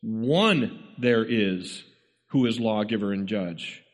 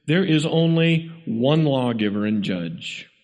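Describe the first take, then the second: First: One said first, long and drawn out, then a pause; emphatic, stretched One, the rest following after a break; stress on One. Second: Said in the usual way. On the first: Shown as a demonstration. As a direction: lean slowly and heavily on One at the start. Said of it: "driving an emphasis on the word one". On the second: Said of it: "Sometimes when we translate".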